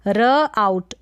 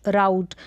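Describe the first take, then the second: First: र आउट in two loud pieces; sounded out. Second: राउट in one piece; राउट as a single syllable with "ow"; blended word. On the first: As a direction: pause between र and आउट. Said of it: "दो टुकड़े हो रहे हैं". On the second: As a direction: join the sounds into राउट. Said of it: "आउ करके पढ़ेंगे". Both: Shown as a demonstration.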